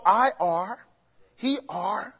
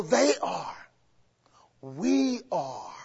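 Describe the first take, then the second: First: "I are, he are" tossed off as the wrong form; mock the wrong grammar lightly; wrong usage demo. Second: Said in the usual way. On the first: Shown as a demonstration. Teacher shows the congregation ungrammatical usage, mildly mocking. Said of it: "You don't go". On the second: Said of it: "You go".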